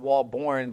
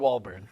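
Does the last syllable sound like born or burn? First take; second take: born; burn. First: The last syllable sounds like born. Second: The last syllable sounds like burn. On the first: This is how the family name should originally sound. The speaker calls it right. "it's supposed to be pronounced Walborn" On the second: This is how the family says the name now. The speaker calls it wrong. "they pronounce it wrong. So now we're Walburn"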